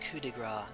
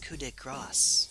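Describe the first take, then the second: First: The last word ends without an s sound. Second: The last word ends with an s sound. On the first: It means a touch of fat. The speaker calls it wrong. "It is not pronounced coup de grace. That is French for touch of fat" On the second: It means a touch of grace. The speaker calls it right. "What she means to say is coup de grace, which is touch of grace"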